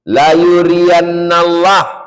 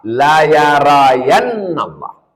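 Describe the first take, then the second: First: The verb's first vowels are u then i. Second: The verb's first vowels are a then a. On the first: "huruf ya-nya dhammah, wa kasri ra" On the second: "dua-duanya dibaca fathah"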